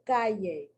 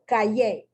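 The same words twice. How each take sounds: First: The stress falls on the next-to-last syllable. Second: The stress falls on a different syllable. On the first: The speaker calls it right. "The correct pronunciation" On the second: The speaker calls it wrong. "with the accent incorrectly placed"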